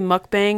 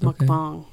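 First: It is pronounced as English spelling suggests. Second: It is pronounced the way Korean speakers say it. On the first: The speaker calls it wrong. "A lot of people say mukbang because that's how it's spelled" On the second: The speaker calls it right. "It's Korean. I listened to a Korean pronunciation of it"

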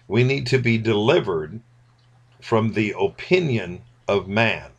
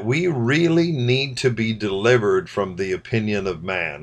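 First: It is said very slowly. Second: It is said at normal speed.

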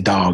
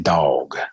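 First: The word is said as a plain, short 'dog'. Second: The word is drawn out as 'dawg' with a W. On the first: "I don't say dog" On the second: "With a W"

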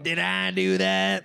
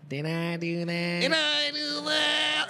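First: The put-on voice is pitched fairly low. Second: The put-on voice is pitched higher.

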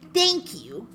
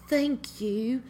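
First: It is said in a plain American accent. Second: It is said with a British-sounding accent.

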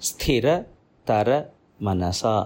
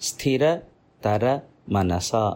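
Both takes have the same delivery.

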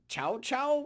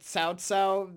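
First: The name begins with a 'ch' sound. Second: The name does not begin with 'ch'. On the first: This is how the game's characters say it. "They kind of go Chao Chao" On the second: This is the usual English rendering. "they don't say it Cao Cao"

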